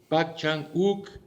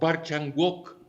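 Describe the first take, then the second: First: The name is pronounced with Korean sounds. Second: The name is read as its Latin spelling. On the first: "como se pronuncia en coreano" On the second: "como se translitera escrituralmente"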